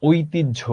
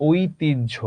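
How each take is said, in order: Both takes have the same delivery.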